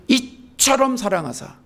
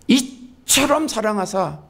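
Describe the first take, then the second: Both takes have the same delivery.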